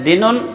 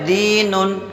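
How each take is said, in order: First: The first vowel is short and clipped. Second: The first vowel is drawn out long. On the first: The speaker calls it wrong. "तो गलत है" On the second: The speaker calls it right. "दाल को एक अलिफ के बराबर खींचना है"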